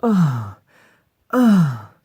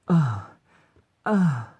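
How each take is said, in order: First: Very loud, high acted moans; hard moan. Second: Short, raised acted moans; light moan. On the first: Voice actor demonstrating line five, hard loud moans. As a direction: moan hard at full volume. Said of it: "Hard fucking one". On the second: Voice actor demonstrating line four, light moans. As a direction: give two brief, lighter moans. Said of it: "That's a light one". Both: Shown as a demonstration.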